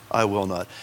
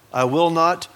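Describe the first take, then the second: First: Soft final vow. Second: Said in the usual way. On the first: Retold or imitated. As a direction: drop low and quiet on the last "I will not.". God's pledge repeated in Hosea.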